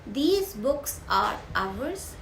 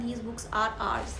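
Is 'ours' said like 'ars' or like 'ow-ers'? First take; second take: ow-ers; ars. First: 'Ours' is said as two syllables, like 'ow-ers'. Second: 'Ours' is said as one syllable, like 'ars'. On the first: It is clearer to the listener. The speaker calls it right. "Accent है थोड़ा change करके बोल सकते हैं, that is आवर्स" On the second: It sounds confusing to the listener. The speaker calls it wrong. "आर्स बोलेंगे तो थोड़ा confuse हो जाता है"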